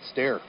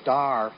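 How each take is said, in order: First: The name rhymes with care. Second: The name rhymes with car. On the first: The speaker calls it right. "that's our job, to get pronunciations right" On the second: The speaker calls it wrong. "I've noticed the PA man calling him Star"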